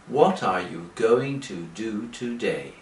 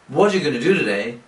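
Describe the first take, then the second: First: It is spoken slowly with each word separate. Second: It is spoken fast with the words run together. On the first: "But English people don't speak like that" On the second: "English people speak very quickly"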